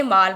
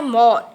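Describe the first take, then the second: First: माल with an open Hindi aa; Hindi long aa. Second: मॉल with a rounded English o; English o vowel. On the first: Teacher showing pupils the word without the mark, plain aa. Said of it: "हम हिंदी में बिना चंद्र-, अर्धचंद्राकार के". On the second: Teacher showing pupils the English vowel, clear rounded o. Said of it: "अर्धचंद्राकार की मात्रा लगाकर". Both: Shown as a demonstration.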